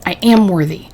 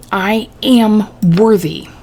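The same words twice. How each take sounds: First: Said in the usual way. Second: Very slow, drawn-out "I am worthy"; slow insistence. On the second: A narrator's reading. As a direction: stretch each word out emphatically. Insistent repeat after being questioned.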